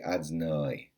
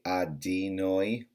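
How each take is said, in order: First: The middle syllable shrinks to a bare 'd'. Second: The middle syllable is said as 'di'. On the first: "like a shva. Like you shouldn't say adnoi" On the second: "Some people say adinoi. That's wrong"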